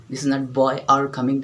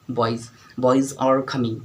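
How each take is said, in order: First: Put-on boy said without the final z, the wrong way. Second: Put-on boys said slowly with a clear z at the end; right boys. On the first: Teacher showing students the wrong plural of boy. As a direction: drop the z from boy, as the mistake. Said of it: "जैसे boys are coming". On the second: Teacher showing students the right way to say boys. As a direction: stretch out boys and buzz the final z. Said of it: "this is boys". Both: Shown as a demonstration.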